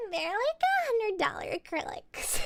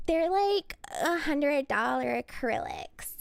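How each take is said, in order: First: High, hammed-up Valley girl whine; exaggerated Valley girl accent. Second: Put-on slow Valley girl drawl; Valley girl accent. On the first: Streamer repeating her nail brag, higher Valley girl accent. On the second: Streamer showing off her nails, slow Valley girl accent. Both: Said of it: "I'll just have to talk like this".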